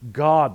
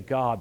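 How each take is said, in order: First: It is said in a changed, pompous voice. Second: It is said in a plain, ordinary voice. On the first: "Their whole tone of voice changes. How arrogant" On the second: "they can't just say God"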